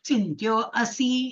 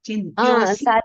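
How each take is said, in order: First: The two words are said separately. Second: The two words are run together. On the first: "இந்த apostrophe போடுங்க" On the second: "சிந்தியோசி படிக்கலாம்"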